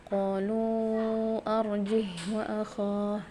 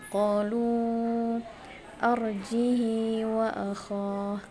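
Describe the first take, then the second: First: The h of arjih has no vowel after it. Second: The h of arjih takes a lengthened i sound. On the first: "mensukunkan haknya" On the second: "mengkasrahkan haknya, silahnya itu dua harokat"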